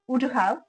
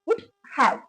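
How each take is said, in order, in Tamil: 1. இந்த ரெண்டு வார்த்தையும் சேர்த்து ஒரே மாதிரி சொல்றோம். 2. இந்த ரெண்டு வார்த்தையும் தனித்தனியா, முழுசா சொல்றோம். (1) "சேர்த்து சொல்லும்போது இந்த மாதிரி சொல்றோம்" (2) "பிரிச்சு சொல்லும்போது"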